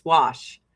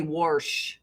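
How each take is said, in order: First: Said in the usual way. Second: "warsh" with an r slipped into wash; grandma's pronunciation. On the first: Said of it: "Used to dri-, drive me nuts". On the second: Retold or imitated. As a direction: say "warsh", r before the sh. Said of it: "my grandma would say".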